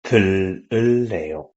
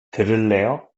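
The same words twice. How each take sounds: First: 들을래요 with falling statement tune. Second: 들을래요 with rising question tune. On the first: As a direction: say 들을래요 flat as a plain statement. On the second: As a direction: lift the end of 들을래요 as a question. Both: Shown as a demonstration.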